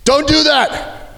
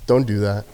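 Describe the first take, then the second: First: Much higher, slowed "Don't do that!" shouted; urgent guard yell to stop a fight. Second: Low, soft, easy "don't do that"; cool quiet guard warning; calm. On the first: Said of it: "I have to yell at them". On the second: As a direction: say "don't do that" relaxed and unbothered. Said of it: "Super calm, cool". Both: Retold or imitated.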